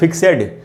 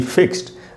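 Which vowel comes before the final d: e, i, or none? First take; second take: e; none. First: An e vowel is heard before the d. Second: No vowel is heard before the final d. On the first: The speaker calls it wrong. "इसको फिक्सेड या फिक्सिड तो हम नहीं पढ़ रहे" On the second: The speaker calls it right. "ई का उच्चारण नहीं हो रहा"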